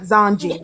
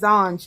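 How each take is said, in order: First: The word ends with an added 'ee' vowel. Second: The word ends on a consonant, no final vowel. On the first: The speaker calls it wrong. "not Zonji" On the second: The speaker calls it right. "I said Zonj"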